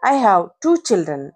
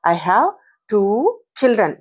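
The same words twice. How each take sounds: First: Said in the usual way. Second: Put-on "I have... two... children", broken by pauses; word-by-word demonstration. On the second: Shown as a demonstration. Teacher modelling pronunciation for learners, word by word. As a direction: separate "two" and "children" clearly. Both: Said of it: "వాటిని ఎలా పలకాలి".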